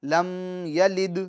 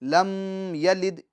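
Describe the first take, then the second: The two takes are said the same way.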